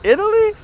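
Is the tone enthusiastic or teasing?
teasing. It is said as a doubtful, teasing question.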